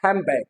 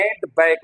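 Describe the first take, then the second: First: "हैंड बैग" run together as "hæmbæg", d dropped, n to m; fluent "hambag". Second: "हैंड बैग" with a clear d, two words; careful isolated "हैंड बैग"; separated "hand bag". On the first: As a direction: say "हैंड बैग" like one word, m before b. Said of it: "अगर वो fluently बोलेगा तो क्या होगा". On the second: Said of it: "अगर ऐसे separately बोल रहा है". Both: Shown as a demonstration.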